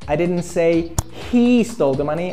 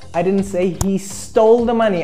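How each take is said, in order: First: The stress falls on the word he. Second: The stress falls on the word stole. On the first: Someone else took the money. "I said another guy stole the money" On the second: The money was taken another way, not stolen. "I said he just borrowed it"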